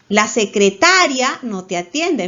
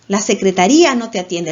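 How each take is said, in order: First: The stress falls on the syllable ta. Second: The stress falls on the syllable ri. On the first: The person does not attend to you. "La fuerza está en ta" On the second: The office does not attend to you. "En la sílaba ri"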